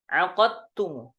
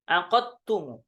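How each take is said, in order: The two takes are said the same way.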